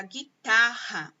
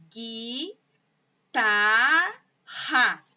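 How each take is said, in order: First: Said in the usual way. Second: "guitarra" split GUI, TAR, RA with clear pauses; three separate sounds in "guitarra", the last two loud; syllable by syllable. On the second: Shown as a demonstration. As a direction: sound out "guitarra" slowly, one syllable at a time. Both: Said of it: "ela tem três sons".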